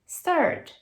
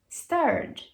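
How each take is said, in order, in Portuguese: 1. A palavra termina só com um som de d. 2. A palavra termina só com um som de d.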